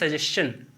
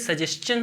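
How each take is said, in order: First: The middle sound is said as 'sh'. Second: The middle sound is said as 'ch'. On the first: The speaker calls it wrong. "हम पढ़ते हैं सजेशन" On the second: The speaker calls it right. "इसी same rule पर ये सजेशन होता है"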